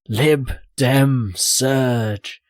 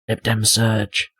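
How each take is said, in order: First: It is said emphatically, with more energy. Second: It is said flatly, without much energy. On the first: The speaker calls it right. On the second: The speaker calls it wrong.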